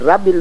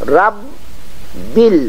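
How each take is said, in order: First: The b sound is short and single. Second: The b sound is held and doubled. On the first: The speaker calls it wrong. "ये रब्बिल नहीं होना चाहिए" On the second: The speaker calls it right. "रब बिल आलमीन होना चाहिए"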